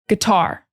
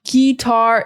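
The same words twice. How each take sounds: First: The first syllable is very short and reduced. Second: The first syllable is drawn out and full. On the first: The speaker calls it right. "The sound is very short" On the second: The speaker calls it wrong. "it's not guitar"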